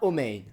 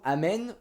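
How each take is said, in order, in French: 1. La première voyelle est un son 'o'. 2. La première voyelle est un son 'a'. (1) "qui devient Omein" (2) "certains sons A en séfarade"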